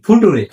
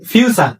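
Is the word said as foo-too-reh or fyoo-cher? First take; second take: foo-too-reh; fyoo-cher. First: It is read letter by letter as foo-too-reh. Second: It is said as fyoo-cher, with a ch sound. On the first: The speaker calls it wrong. "আসলে কি এটার উচ্চারণ ফুটুরে? না" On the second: The speaker calls it right. "এটার উচ্চারণ ফিউচার"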